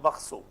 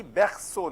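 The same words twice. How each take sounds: First: "berceau" with a dull "uh" in the first syllable; mispronounced "berceau", schwa in place of open E; wrong vowel demonstrated. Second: "berceau" with an open "eh" in the first syllable; French "berceau", clear open E before the R; correct French vowel. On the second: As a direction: say "berceau" as "behr-so", throaty R. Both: Shown as a demonstration. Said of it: "not berceau".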